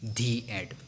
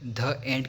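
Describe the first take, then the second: First: 'The' is said with a long 'thee' vowel. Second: 'The' is said with a short 'thuh' vowel. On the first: The speaker calls it right. "हम उसे क्या बोलते हैं, धी एंड" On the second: The speaker calls it wrong. "ध एंड की जगह"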